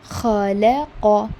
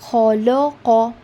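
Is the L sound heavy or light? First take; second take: light; heavy. First: The L sound is light and thin. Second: The L sound is heavy and thick. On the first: The speaker calls it right. "The lam needs to be thin" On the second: The speaker calls it wrong. "what the mistake they do here is they read it like this"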